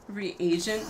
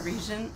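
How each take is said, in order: First: The word is said with three syllables. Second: The word is said with two syllables. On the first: The speaker calls it right. "Reagent, not a regent" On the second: The speaker calls it wrong. "I've always called it a, called it a regent"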